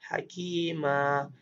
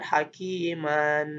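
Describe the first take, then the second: First: The word ends on a bare a vowel. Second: The word ends with the nasal -an. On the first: This is the form used when stopping. "Maka kita baca jadi" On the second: This is the full form without stopping. "ada juga tanwin"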